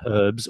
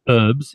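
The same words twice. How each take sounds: First: The word begins with an h sound. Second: The word begins without an h sound.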